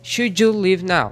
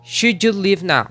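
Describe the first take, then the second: Both takes have the same delivery.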